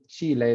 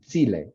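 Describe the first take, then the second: First: The first consonant is pronounced further back. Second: The first consonant is pronounced further forward. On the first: "they don't say Chile" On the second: "they've further fronted that sound in their mouth"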